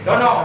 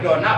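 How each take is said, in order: First: The word ends with an o vowel. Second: The word ends with an a vowel. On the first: The speaker calls it wrong. "Yang nggak boleh dono" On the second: The speaker calls it right. "Jadi boleh dona"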